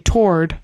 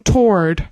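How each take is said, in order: First: The word rhymes with sword. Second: The same.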